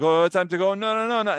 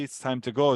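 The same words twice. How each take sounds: First: A higher, louder mock protest of no, no, no; reluctant whine. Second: Said in the usual way. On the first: The people balking at the order to travel, a higher mock whine. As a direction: play the people's dismayed refusal.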